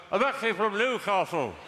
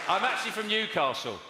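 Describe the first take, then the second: First: "I'm actually from Newcastle." said as if through a mouthful of cake; mouthful imitation. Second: Talking through a bite of cake; mouth full. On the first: Comedian mimicking an audience member who sounds like he's eating, muffled. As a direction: mumble the line around a bite. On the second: Real, not acted. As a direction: say it round a mouthful. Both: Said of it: "Are you eating or something?".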